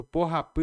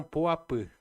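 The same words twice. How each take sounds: First: Porrapã with an audible, breathed h between po and apã; porrapã com H. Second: Poapã with no h, po running straight into apã; poapã sem H. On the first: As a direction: keep the h sound in the middle of porrapã. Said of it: "tiraram o H, porque se eu falar". (porrapã com o H aspirado no meio) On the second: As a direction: drop the middle h in poapã, vowels joined. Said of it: "tiraram o H". (poapã sem H, com as vogais emendadas) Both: Shown as a demonstration.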